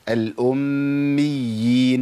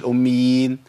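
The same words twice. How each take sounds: First: The doubled consonant is held fully. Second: The doubled consonant is shortened to one. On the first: The speaker calls it right. "يبقى لابد من بيان الايه؟" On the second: The speaker calls it wrong. "ما اقولش الأميين"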